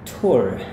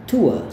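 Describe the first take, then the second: First: It ends with a clearly pronounced r sound. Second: It ends in a gliding 'oo-uh' vowel, no r. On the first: "Sedangkan untuk Amerika dia sangat gampang" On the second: "Itu gaya Inggris"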